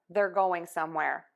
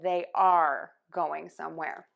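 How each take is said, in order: First: The word 'are' shrinks to a short 'er' sound. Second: The word 'are' is said fully and clearly. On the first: "just that er sound when they're connecting their words together" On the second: "instead of"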